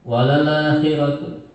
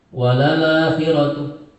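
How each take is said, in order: Both takes have the same delivery.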